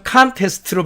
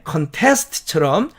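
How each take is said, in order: First: 컨테스트로의 앞 '컨'에 강세; 컨테스트로를 앞을 세게; stress on CON. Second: 컨테스트처럼의 뒤 '테스트'에 강세; 컨테스트처럼을 뒤를 세게; stress on TEST. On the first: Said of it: "앞에다 액센트를 줘서". (앞 강세 contest) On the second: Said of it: "뒤쪽에 액센트를 주면". (뒤 강세 contest) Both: Shown as a demonstration.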